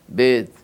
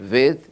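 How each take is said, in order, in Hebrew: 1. הצליל הראשון הוא עצירה b קשה. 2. הצליל הראשון הוא v רך.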